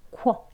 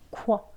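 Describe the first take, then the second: No difference in how they are said.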